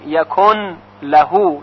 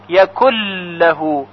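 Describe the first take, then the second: First: The n sound is clearly pronounced before lahu. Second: The n merges into a doubled l sound. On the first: "یعنی نون رو تلفظ کنیم" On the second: "یعنی نون دیگه تلفظ نمیشه"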